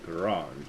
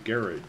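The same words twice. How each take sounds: First: It is said the French way. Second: It is said the British way. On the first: "closer to the French garage" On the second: "the British would say garage"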